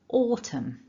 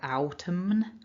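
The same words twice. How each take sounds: First: No N sound is heard at the end. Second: An N sound is heard at the end. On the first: The speaker calls it right. "The N is silent" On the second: The speaker calls it wrong. "We don't say autumn or autumn, definitely not"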